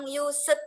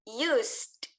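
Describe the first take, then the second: First: The ending is not a bare added d. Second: The word ends with a bare d sound. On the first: The speaker calls it wrong. "jangan pernah bilang used lagi" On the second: The speaker calls it right. "Seperti uh, use, tapi langsung tambahkan D di belakangnya"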